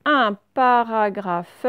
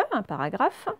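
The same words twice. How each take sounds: First: Drawn out and a little louder; slow reading aloud. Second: Said in the usual way. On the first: Shown as a demonstration. Teacher reading the word slowly to pupils. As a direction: read it slowly for the class.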